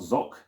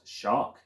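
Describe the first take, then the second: First: The word is said as zoc. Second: The word is said as shark. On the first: "it's not zoc" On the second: "it's not shark"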